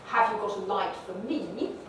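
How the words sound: The stress falls on the pronoun me. The speaker is put in focus. The speaker calls it wrong. "English doesn't like to stress pronouns. It doesn't say"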